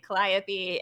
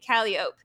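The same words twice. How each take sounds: First: It uses the common mainstream pronunciation. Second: It uses the local New Orleans pronunciation. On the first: "what most people would probably say" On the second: "we say"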